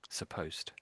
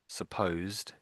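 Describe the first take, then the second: First: The word ends with a T sound. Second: The word ends with a D sound. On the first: "a T sound on the end" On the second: "that's with the D sound on the end"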